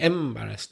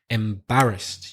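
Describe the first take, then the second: First: The stress is on the first syllable. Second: The stress is on the second syllable. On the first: The speaker calls it wrong. "you put stress on the first. I think you said like embarrassed" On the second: The speaker calls it right. "It's the second syllable"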